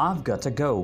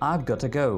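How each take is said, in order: Both takes have the same delivery.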